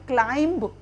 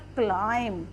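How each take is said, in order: First: The final b sound is pronounced. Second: The final b sound is silent. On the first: The speaker calls it wrong. "अगर हम spelling के according पढ़ेंगे ... but it is not correct pronunciation" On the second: The speaker calls it right. "बी silent"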